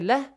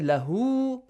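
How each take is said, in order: First: The word ends cut off with no final vowel. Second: The word ends with a stretched final vowel. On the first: The reciter stops at this word. The speaker calls it right. "If you say لَهْ, you do not say لَهُ because you stop there" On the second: The reciter continues reading past this word. The speaker calls it wrong. "you do not say لَهُ because you stop there"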